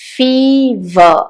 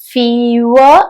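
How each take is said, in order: First: The middle consonant is a clear v. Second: The middle consonant is not a clear v. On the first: The speaker calls it right. "ആ v ആണ് അവിടെ വന്നത്" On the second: The speaker calls it wrong. "fever അല്ല"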